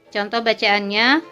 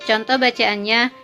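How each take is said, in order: The two takes are said the same way.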